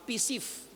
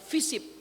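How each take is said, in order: First: A p sound comes first, f last. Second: An f sound comes first, p last. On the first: "P-nya di depan, F-nya itu di belakang" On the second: "bukan fisip"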